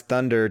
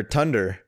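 First: Said in the usual way. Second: "tunder" with a hard T in place of th. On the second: Shown as a demonstration. Joking that Danes say thunder like Tor, hard-T pronunciation. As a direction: turn thunder's opening into a plain T, "tunder". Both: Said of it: "Maybe they pronounce thunder".

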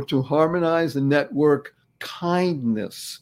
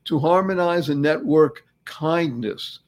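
First: Slow, deliberate "Thanks stands for"; slow acronym. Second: Slow, deliberate "harmonize"; slow repeat. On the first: Host explaining his acronym, slow. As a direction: spell out the acronym slowly. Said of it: "these two words are". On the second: Host repeating his acronym, slow. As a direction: lay out each word slowly. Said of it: "Thanks stands for". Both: Shown as a demonstration.

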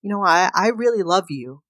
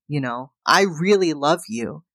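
First: Said in the usual way. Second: Whispered, tearful repeat of the confession. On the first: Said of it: "turns to her and says". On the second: Retold or imitated. Husband to wife, tearful, repeating in a whisper. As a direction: breathe it as a whisper, close to tears.

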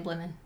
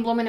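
First: "blooming" with a short I, like "blimmin'". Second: "blooming" with a full OO vowel; blooming, as intended. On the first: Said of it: "the way I say it sounds like". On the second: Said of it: "I'm saying blooming in my head". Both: Shown as a demonstration.

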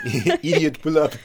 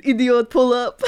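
First: Echoing Clouseau, higher and laughing; fake French accent. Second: Put-on Clouseau's French accent, pitched up; fake French accent. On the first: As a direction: repeat it in a mock French accent. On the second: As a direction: bark it in a hammy French accent. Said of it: "incredible fake French accent".

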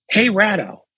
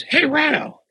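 First: Retold yell. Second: Much higher-pitched mock holler; retold yell, escalated. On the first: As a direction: imitate him yelling across the room, reined in. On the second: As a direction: imitate a second, more insistent call for attention. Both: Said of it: "he yells".

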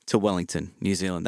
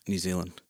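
First: Low-key attempt at a New Zealand accent; a hint of Kiwi accent. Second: Said in the usual way. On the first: Shown as a demonstration. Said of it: "That was my, um, New Zealand accent".

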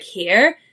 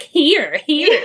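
First: "Here" with a Canadian R, pitched normally; Canadian-style "here". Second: "Here, here" pitched up, mocking the Canadian R; mum mimicking "here". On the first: Shown as a demonstration. Podcast host echoing co-host's word, "Here" with Canadian R. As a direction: say "Here" with the R sounded. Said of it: "I hear that you're saying". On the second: Mum back in England teasing her daughter, exaggerated "here". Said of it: "my mum's like".

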